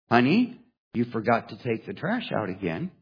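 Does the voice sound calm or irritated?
calm. The sentence is said in a calm, neutral voice. This is a simple reminder. "Only she didn't quite say it that way"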